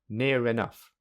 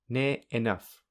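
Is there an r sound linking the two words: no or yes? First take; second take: yes; no. First: An r sound joins the two words together. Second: The words are said with no r between them. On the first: "secondly with linking" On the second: "Firstly without linking"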